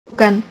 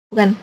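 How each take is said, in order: No difference in how they are said.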